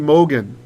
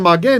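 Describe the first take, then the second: First: The first vowel is a rounded 'oh' sound. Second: The first vowel is an open 'ah' sound. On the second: "instead of magen"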